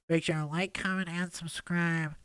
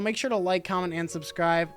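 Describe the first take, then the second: First: It is said in a put-on character voice. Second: It is said in the speaker's ordinary voice.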